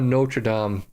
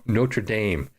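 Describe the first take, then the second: First: The name is said in a non-local way. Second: The name is said the local, team's way. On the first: The speaker calls it wrong. "or no" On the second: The speaker calls it right. "That's how they pronounce it"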